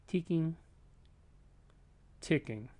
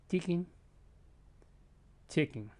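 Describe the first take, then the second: Both takes have the same delivery.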